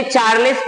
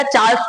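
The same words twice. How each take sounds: First: चार्ल्स as two syllables, "char-lis"; mispronounced Charles. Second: चार्ल्स as one syllable, "chaals"; correct Charles. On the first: Teacher quoting students' misreading, चार्ल्स said as "char-lis". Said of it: "बहुत सारे बच्चे चार्ल्स पढ़ते हैं". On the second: Teacher giving students the right reading, चार्ल्स as "chaals". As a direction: run चार्ल्स together as "chaals", no i. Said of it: "चार्ल्स पढ़ना है". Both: Shown as a demonstration.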